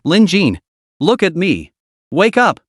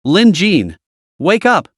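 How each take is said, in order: First: Rapid, panicked calls, pitch rising; frantic calling. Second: Put-on panicked girl calling, pitch rising; tearful shout. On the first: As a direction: call out fast and frantic. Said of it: "calling out in rapid succession". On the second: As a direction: shout him awake, close to tears. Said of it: "a girl's tearful shouts". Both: A narrator's reading.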